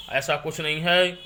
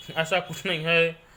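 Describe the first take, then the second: No difference in how they are said.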